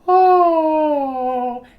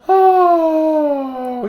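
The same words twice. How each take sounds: First: It is a clear, non-breathy falsetto. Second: It is a breathy falsetto.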